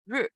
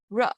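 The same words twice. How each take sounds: First: Ru as Mandarin R I, narrow vowel, falling tone; R I syllable demo. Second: Ru as Mandarin R E, open uh-like vowel; R E syllable demo. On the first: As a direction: say Ru with lips narrow, fourth tone. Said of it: "R I". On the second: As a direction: open your mouth on Ru, falling tone. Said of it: "open your mouth". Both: Shown as a demonstration.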